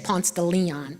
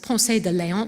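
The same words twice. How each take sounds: First: The name is said in the local pronunciation. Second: The name is said in the non-local pronunciation. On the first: The speaker calls it right. "We say" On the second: The speaker calls it wrong. "We don't say"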